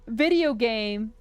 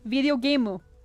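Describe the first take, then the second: First: The phrase ends plainly on the M sound. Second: An extra U vowel is added at the end. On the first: "instead of just being like" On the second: "where they have that entire U at the end"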